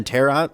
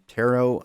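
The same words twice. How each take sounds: First: "Tarot" said as TAIR-ot; final T sounded. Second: "Tarot" said as TAIR-oh; silent final T. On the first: Host unsure of the word, "Tarot" tried as TAIR-ot. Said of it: "I've never learned how to say that word". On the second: Host unsure of the word, "Tarot" tried as TAIR-oh. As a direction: say "Tarot" ending on a long O, no T. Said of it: "say it with a silent T". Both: Shown as a demonstration.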